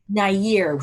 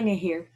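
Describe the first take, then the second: First: The h sound in the middle is silent. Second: An h sound is pronounced in the middle. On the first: The speaker calls it right. "So the H is kind of silent" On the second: The speaker calls it wrong. "Did I say that right?"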